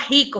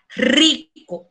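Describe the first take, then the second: First: The R at the start is weak. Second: The R at the start is strong. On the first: The speaker calls it wrong. "não fala rico" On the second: The speaker calls it right. "fala rico. Esse R é pronunciado forte"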